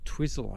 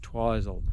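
First: The name is said in a non-local way. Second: The name is said the New Zealand way. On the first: This is how the speaker thinks it should be said. "or Twizel, I reckon it should be pronounced" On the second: This is how locals say it. "the New Zealand pronunciation is Twizel"

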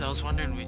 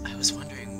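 First: It is said in a deeper, more masculine voice. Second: It is said in a higher, less masculine voice. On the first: The speaker calls it wrong. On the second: The speaker calls it right.

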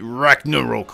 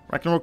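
First: The name is said in an angry, forceful way. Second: The name is said in a sleepy, drowsy way. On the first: The player is furious. "when he's angry" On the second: The player is tired. "when he's sleepy"

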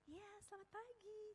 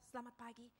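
First: The greeting is said in an exaggeratedly soft, gentle way. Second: The greeting is said in a plain, normal way.

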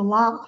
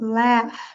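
First: The vowel is the more open British sound. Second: The vowel is the less open American sound.

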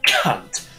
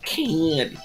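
First: The word is said with strong, forceful emphasis. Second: The word is said flatly, without real emphasis. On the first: It is said the way people say it over here. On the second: It is said the way Americans say it. "there's no like real emphasis behind it"

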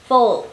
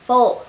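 The two takes are said the same way.

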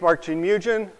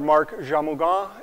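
First: The name is pronounced the English way. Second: The name is pronounced the French way. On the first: This is the usual everyday pronunciation. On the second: This is how it is said in Montreal.

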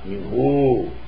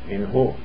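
First: The final vowel is lengthened, held long. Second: The final vowel is short, not lengthened. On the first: The speaker calls it wrong. "not minhu" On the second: The speaker calls it right. "After sakin, when ya dhamir comes, it is not mad"

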